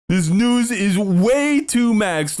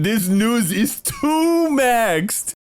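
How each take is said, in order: First: Slow drawn-out mockery, stress on way; mocking drawl. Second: Slow, high drawn-out mockery; mocking drawl. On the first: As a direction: lean on way, drawn out. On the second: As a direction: stretch it out in disbelief. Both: Real, not acted. Mocking the news.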